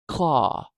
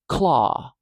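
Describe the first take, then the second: First: The k and l sounds are joined directly. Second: The k and l sounds are joined directly.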